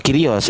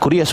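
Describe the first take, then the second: First: The first vowel sounds like 'ee'. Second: The first vowel sounds like 'oo'. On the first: The speaker calls it right. "Ini nggak bisa dibaca u" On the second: The speaker calls it wrong. "Bukan kurios bang"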